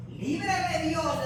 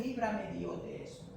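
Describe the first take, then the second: First: Loud, slow proclamation; drawn-out preacher's shout; forceful declaration. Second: Said in the usual way. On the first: Acted. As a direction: cry it out slowly like a vow. Preacher crying out Naboth's refusal.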